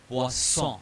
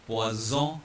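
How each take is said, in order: First: "poisson" with a voiceless S in the middle; hissing double S. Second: "poison" in French, with a Z in the middle; buzzing single S. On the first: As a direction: hiss the middle of "poisson", nasal ending. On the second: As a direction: buzz the S of "poison" as Z, nasal ending. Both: Shown as a demonstration. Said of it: "to differentiate between the two sounds".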